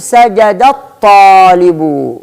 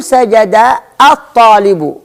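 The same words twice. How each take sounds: First: سجد الطالب slowly linked as "sajadat-taalibu"; slow demonstration, no "a" before الطالب after سجد; joined, hamza dropped. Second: سجد الطالب with a break before الطالب, its opening "a" sounded; unjoined, sounded hamza. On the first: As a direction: glide from the dal of سجد straight into a doubled ta in الطالب. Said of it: "سأنتقل من الدال إلى الطاء مباشرة". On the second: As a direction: separate سجد from الطالب with a glottal onset. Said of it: "شيء من الخطأ". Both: Shown as a demonstration.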